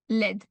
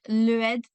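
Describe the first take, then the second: First: The article is elided into one syllable. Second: The article is said as a separate extra syllable. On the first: The speaker calls it right. "c'est comme si ça n'existe pas, hein, c'est juste l'aide" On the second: The speaker calls it wrong. "vous voulez mettre une syllabe su- supplémentaire"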